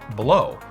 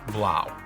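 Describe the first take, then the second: First: The vowel sounds like the one in 'go'. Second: The vowel sounds like the one in 'now'. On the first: The speaker calls it wrong. "In my last episode, I said blow" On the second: The speaker calls it right. "apparently it's actually pronounced Blau"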